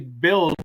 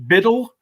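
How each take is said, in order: First: It is said like 'build', one syllable. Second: It is said like 'biddle', two syllables. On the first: This is how the speaker always says the name. "I always just go ahead and say build" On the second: This is how the other person says the name. "Did you pronounce it Biddle?"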